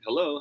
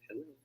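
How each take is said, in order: First: The word is said at a normal speaking volume. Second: The word is said very quietly and weakly. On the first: The speaker calls it right. "closest to your natural volume" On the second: The speaker calls it wrong. "Hindi naman sobrang hina like"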